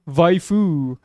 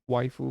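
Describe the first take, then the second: First: The word begins with a V sound. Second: The word begins with a W sound. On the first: The speaker calls it wrong. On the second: The speaker calls it right.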